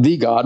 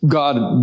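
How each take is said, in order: First: "the" stressed, said like thee; "the God" with the weight on "the". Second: Said in the usual way. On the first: Shown as a demonstration. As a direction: lean hard on "the".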